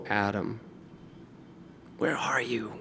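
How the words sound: It is said in a heartbroken tone. The speaker is grieved, not angry. The speaker calls it right. "God said it with a broken heart"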